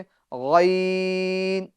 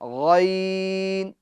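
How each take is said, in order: Both takes have the same delivery.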